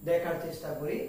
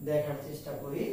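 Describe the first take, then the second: Both takes have the same delivery.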